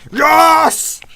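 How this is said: It is said in a strong, confident voice.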